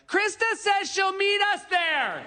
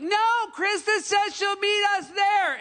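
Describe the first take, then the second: First: Put-on drunken yell. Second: Exasperated repeat yell. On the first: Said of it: "you hear someone yell something like". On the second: Retold or imitated. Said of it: "the first person has to be like".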